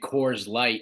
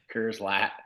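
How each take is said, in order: First: It is said in a plain, general accent. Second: It is said in a Southern drawl with flattened vowels. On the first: This is the usual way of saying it. "instead of saying Coors Light" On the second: A Southern friend says it this way. "he's Southern"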